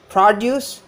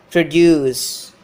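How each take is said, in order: First: Produce with a high, strong PRO; PROduce, stressed open first syllable. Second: Produce with long, loud -DUCE; proDUCE, second syllable drawn out and falling; stress on second syllable. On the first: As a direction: say produce as the noun, hitting pro-. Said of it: "This syllable is stressed". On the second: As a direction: say produce as the verb, hitting -duce. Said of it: "Here the second syllable is stressed". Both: Shown as a demonstration.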